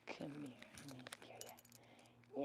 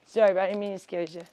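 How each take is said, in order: First: Slow, breathy hush to a frightened pet; soft whisper. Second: Said in the usual way. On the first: Real, not acted. To her scared bunny Casper, a slow soft whisper. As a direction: whisper it slowly so he calms.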